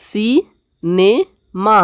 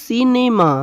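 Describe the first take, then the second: First: cinema slowly split as সি, নে, মা; in three parts. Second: Said in the usual way. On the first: Shown as a demonstration. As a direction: stretch cinema syllable by syllable. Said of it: "এই তিন ভাগে ভাগ করেছি এটাকে". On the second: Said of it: "তিন ভাগে ভাগ করেছি".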